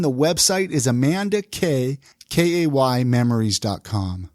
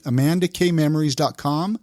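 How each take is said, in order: First: Slow, clear website read; slow and spelled out. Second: Said in the usual way. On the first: Shown as a demonstration. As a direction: spell it out slowly for listeners.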